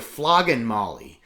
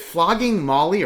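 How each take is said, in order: First: The first word ends with an n sound. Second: The first word ends with an ng sound. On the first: "or I N" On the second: "like I N G"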